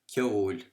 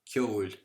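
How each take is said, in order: Both takes have the same delivery.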